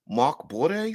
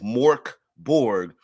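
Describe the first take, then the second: First: It imitates the original language's pronunciation. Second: It is said the English way. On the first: This is how the words are said in their source language. "the pronunciation of the word Dark Fort in this other language is" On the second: This is how the game's title is commonly said now. "I understand I'm mispronouncing Morkborg"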